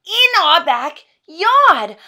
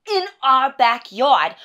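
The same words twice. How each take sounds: First: Very loud, high, drawn-out indignation; over-the-top outburst, stretching each word; outraged. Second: Loud, slow, outraged emphasis; exasperated wife, raised voice; indignant. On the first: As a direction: wail it in exasperated disbelief. Rant peaks on repeated phrase. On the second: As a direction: hit each word in disbelief. Wife ranting about fish burials. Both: Acted.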